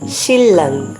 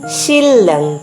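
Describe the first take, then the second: No difference in how they are said.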